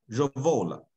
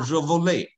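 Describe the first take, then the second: First: The word ends without any added final vowel. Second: The word ends with an added final vowel sound. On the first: The verb is properly conjugated. The speaker calls it right. "所有的后面都是没有这个a 的音的啊。" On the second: The verb is left unconjugated. The speaker calls it wrong. "你不能说revole，你如果发成revole 那就是这样了，等于没变位啊"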